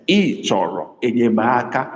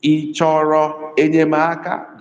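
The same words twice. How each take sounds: First: "Ị chọrọ enyemaka" falling to low tones; low-tone "Ị chọrọ enyemaka", as a statement. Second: Slow "Ị chọrọ enyemaka" on high, level tones; high-tone "Ị chọrọ enyemaka", unhurried; high tone question. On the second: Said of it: "That is high, high tone". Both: Shown as a demonstration.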